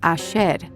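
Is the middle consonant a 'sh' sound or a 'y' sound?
sh. The middle consonant is pronounced as a sh sound. "with a sh sound, as in ayer"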